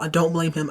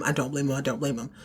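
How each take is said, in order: First: Said in the usual way. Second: Fading to quiet. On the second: Retold or imitated. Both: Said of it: "Karen is at her wit's end".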